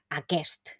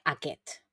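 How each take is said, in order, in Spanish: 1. La s antes de la t final se pronuncia. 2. La s antes de la t final se omite. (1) "se escribe con una S en medio, pero es un poco difícil de pronunciar" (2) "lo común es pronunciar aquest"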